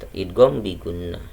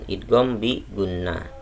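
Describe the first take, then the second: No difference in how they are said.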